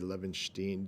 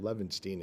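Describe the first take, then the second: First: The name gets a comic, Frankenstein-style pronunciation. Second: The name gets its ordinary, standard pronunciation. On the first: "I say Levenstein just to make it funny" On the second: "is actually how you pronounce it"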